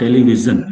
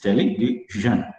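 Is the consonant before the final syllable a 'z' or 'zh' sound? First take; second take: z; zh. First: The consonant before the last syllable is a z sound. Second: The consonant before the last syllable is a zh sound. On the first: The speaker calls it wrong. "Like Z O O is zoo, but it's not television" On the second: The speaker calls it right. "it is television"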